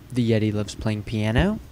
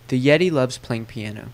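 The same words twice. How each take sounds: First: The pitch rises at the very end of the sentence. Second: The pitch falls toward the end of the sentence. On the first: It asks a yes-no question. "we usually bring our pitch up at the very end of the sentence" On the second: It is a statement of fact. "you'll actually hear my pitch going down as I go through the sentence"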